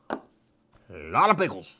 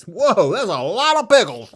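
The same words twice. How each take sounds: First: Much lower and slower mock echo. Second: Bright, louder marvelling; excited whoa. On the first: Echoing his own words to the camera, slow and low. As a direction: drag it out low, like a deep echo. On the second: Real, not acted. Marvelling at a boxcar full of pickles, louder and excited. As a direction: sound impressed by the pickles.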